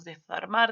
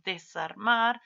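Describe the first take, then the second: First: Desarmar with a lisped th sound for the s; wrong lisped desarmar. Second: Desarmar with a clear s sound; correct desarmar. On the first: Teacher models the wrong lisped desarmar. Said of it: "no decimos desarmar". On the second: Teacher gives students the correct desarmar. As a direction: say desarmar with a plain s. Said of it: "decimos desarmar". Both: Shown as a demonstration.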